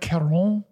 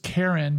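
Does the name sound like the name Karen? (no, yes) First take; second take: no; yes. First: It does not sound like the name Karen. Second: It sounds just like the name Karen. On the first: The speaker calls it wrong. "you don't want to say like Charon. It's not like that" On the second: The speaker calls it right. "I think it's just Karen"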